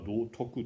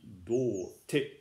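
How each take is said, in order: First: The word ends in two syllables "toku". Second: The word ends in a short syllable "te". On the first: This is the usual reading. "普通は道徳と読みますね" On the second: This is one translator's unusual reading. "これも水野八百子さん独特の読み方です"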